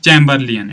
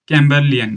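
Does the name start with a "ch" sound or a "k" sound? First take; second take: ch; k. First: The name starts with a "ch" sound. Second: The name starts with a "k" sound. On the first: The speaker calls it right. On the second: The speaker calls it wrong.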